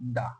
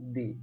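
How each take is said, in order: First: The word ends in a short 'uh' vowel. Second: The word ends in a long 'ee' vowel. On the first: "শেষ word যদি হয় consonant তাহলে টি-এইচ-ই এই ওয়ার্ডটার উচ্চারণ হবে দা" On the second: "ভাওয়েলের আগে এই ওয়ার্ডটা হবে দি"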